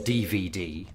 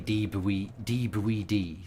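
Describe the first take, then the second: First: The middle letter has a clear V sound. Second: The middle letter is said with a B sound.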